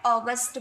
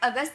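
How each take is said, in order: First: The word is said with English vowel sounds. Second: The word is said with Hindi vowel sounds. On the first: "English में आप अगस्त बोलोगे" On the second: "Hindi में आप अगस्त बोलोगे"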